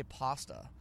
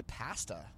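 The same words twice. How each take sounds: First: Pasta said PAH-stuh, A as in "father"; broad-A pasta. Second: Pasta said PASS-tuh, A as in "cat"; Canadian short-A pasta. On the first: Canadian showing what we don't say, broad-A pasta. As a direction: say pasta with an open "ah". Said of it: "We don't say pasta". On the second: Canadian showing how we say it, short-A pasta. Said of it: "we say pasta". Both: Shown as a demonstration.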